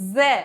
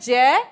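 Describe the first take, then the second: First: It starts with a z sound. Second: It starts with a j sound. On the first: "अरबी फारसी का ये वर्ण क्या कहलाता है ज़ै" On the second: "हिंदी में हम बोलते हैं जय"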